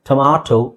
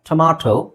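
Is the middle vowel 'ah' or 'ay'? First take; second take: ah; ah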